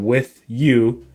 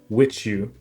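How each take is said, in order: First: The two words stay separate, no ch sound. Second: The two words merge with a ch sound. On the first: "instead of with you" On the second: "coalesce and become a ch"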